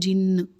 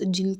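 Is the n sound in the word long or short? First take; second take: long; short. First: The n sound is long and doubled. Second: The n sound is short and single. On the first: It is the Arabic word, naming the beings as a plural. "तशदीद के साथ है तो हम मुशद्दिद पढ़ेंगे" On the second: It is the Urdu word, naming a single being. "तशदीद के बगैर करेंगे"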